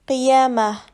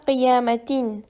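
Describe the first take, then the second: First: The word ends with a soft ah. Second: The word ends with a full atin. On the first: The speaker calls it right. "Il faut prononcer qiyamah" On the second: The speaker calls it wrong. "on ne prononce pas qiyamatin"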